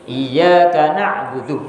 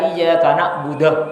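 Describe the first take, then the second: First: The last word ends in an u vowel. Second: The last word ends in an a vowel. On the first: The speaker calls it right. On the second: The speaker calls it wrong.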